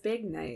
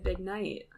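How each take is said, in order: First: The word big carries the stress. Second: The word night carries the stress. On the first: It refers to a big night out. The speaker calls it right. "That's why we emphasize big night" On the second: It sounds like it refers to someone named Knight. The speaker calls it wrong. "That's why we don't say big night"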